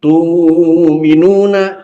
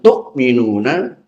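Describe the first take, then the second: First: The first syllable has a long u vowel. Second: A glottal stop closes the first syllable. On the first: "tapi tu'minuna" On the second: "bukan tu'minuna"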